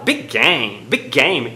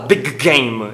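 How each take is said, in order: First: Big game with one shared G joining the words; linked G. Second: Big game with two separate G sounds; careful unlinked big game. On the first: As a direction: run big into game through a single G. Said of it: "aproveita o mesmo G". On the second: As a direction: say big game with the G of big, then a new G in game. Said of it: "o nativo ele não fala big game". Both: Shown as a demonstration.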